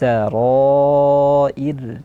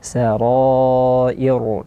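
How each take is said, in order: First: The final r is pronounced thin and light. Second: The final r is pronounced thick and heavy. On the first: The speaker calls it right. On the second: The speaker calls it wrong. "kesalahan menebalkan huruf ra uh, yang uh, seperti ini"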